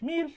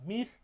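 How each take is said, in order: First: The word is said on a high pitch. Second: The word is said on a mid pitch. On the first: It means moth. "the highest pitch" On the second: It means snare. "the mid pitch"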